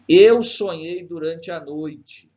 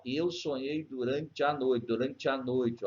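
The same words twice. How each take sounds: First: Slow, declaimed line with a loud, high start; verse recitation. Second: Slow "durante a noite", e and a run together; elided vowels. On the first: Teacher reading Gonçalves Dias to students, slow recitation. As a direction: launch strongly on "Eu", then measure out the verse. Reads the poem's verse aloud. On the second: Teacher showing one syllable where vowels meet, slow linking. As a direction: link "durante a" into one flowing syllable at the join. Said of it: "uma sílaba só". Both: Shown as a demonstration.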